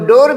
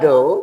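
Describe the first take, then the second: First: The word ends with an audible r sound. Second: The word ends without an r sound.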